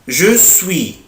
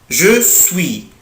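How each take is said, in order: The two takes are said the same way.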